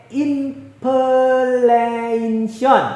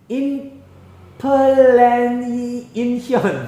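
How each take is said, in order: Both takes have the same delivery.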